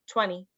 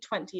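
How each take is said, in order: First: The middle T is dropped. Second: The middle T is clearly pronounced. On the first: The speaker calls it right. "It's just twenty" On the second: The speaker calls it wrong. "You don't say the T, you don't say twenty"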